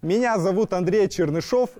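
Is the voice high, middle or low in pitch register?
high. It is spoken in a high head register.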